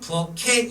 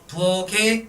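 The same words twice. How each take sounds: First: The final consonant links over as an aspirated k. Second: The final consonant links over as a plain g. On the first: The speaker calls it right. "이 번이 정답이죠" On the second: The speaker calls it wrong. "일 번"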